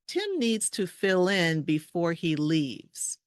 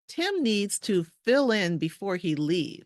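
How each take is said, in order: First: The sentence is spoken at a slower pace. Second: The sentence is spoken at a faster pace.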